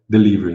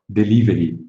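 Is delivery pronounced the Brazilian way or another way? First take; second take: another way; Brazilian way. First: The word is not pronounced the Brazilian way. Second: The word is pronounced the Brazilian way. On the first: The speaker calls it wrong. "a gente não fala delivery" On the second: The speaker calls it right. "a gente fala delivery"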